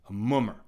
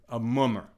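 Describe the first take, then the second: Both takes have the same delivery.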